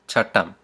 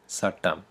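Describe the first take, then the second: First: The word begins with a ch sound. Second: The word begins with an s sound. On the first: This is the formal, grammatical pronunciation. "So the grammatical one first" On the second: This is how most people actually say it. "they'll say sattam"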